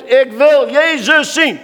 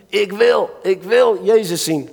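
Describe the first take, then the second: First: Loud, high, slow plea; a blind man shouting for Jesus; crying out. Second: Said in the usual way. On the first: Acted. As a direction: call it out as if desperate for Jesus to hear. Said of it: "Schreeuw het uit". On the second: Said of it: "Bartimaeus zei".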